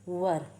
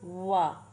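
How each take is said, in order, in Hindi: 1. इसके अंत में साफ़ r की आवाज़ है। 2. यह एक लंबे स्वर पर खत्म होता है, इसमें r नहीं है। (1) "अमेरिकन इंग्लिश में वर" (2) "ब्रिटिश इंग्लिश में वाह वाह बोलते हैं"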